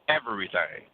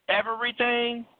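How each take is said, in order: First: Everything. dropped low with a heavy final fall; firm answer. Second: Incredulous question. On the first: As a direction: settle it with a flat, certain fall. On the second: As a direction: ask it as if you can't believe it. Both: Pretend. Incredulous question then flat answer.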